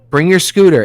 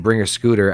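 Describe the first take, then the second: First: Raised call across the street. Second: Said in the usual way. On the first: Retold or imitated. Calling to daughter to bring her scooter, raised voice. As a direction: call her over, a bit louder. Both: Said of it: "I wasn't even yelling".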